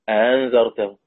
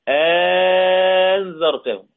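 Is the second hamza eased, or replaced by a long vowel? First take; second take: eased; long vowel. First: The second hamza is softened, not fully pronounced. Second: The second hamza becomes a long drawn-out vowel. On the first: "التسهيل في كلمة زي كلمة أأنت" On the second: "الوجه الثاني بإبدال الهمزة الثانية ألف مد"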